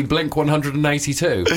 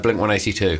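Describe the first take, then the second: First: "one hundred and eighty-two" said out in full; English way. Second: "one eighty-two" without the hundred; American way. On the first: Correcting a band name English-style, "one hundred and eighty-two" in full. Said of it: "the English way of saying it". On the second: Respecting the American band's name, "one eighty-two" said short. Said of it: "the American way". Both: Shown as a demonstration.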